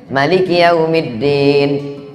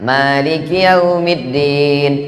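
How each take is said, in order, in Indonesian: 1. Vokal pertama "ma" dibaca pendek. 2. Vokal pertama "ma" dibaca panjang. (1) "Qiraat Warsh pendek" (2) "qiraat Hafs, ma-nya panjang"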